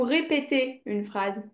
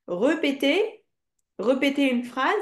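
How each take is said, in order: First: "répéter" said ré-pé-té with a clear first é; right option. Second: "répéter" said slowly as re-pé-té with a schwa first; wrong option. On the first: Teacher tests pupil's ear, demonstrating the right form. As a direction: close the choice with "répéter" opening on ré. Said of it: "ou répéter une phrase". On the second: Teacher tests pupil's ear, demonstrating the wrong form. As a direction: lift "répéter" questioningly, opening on re-. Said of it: "Est-ce qu'on dit". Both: Shown as a demonstration.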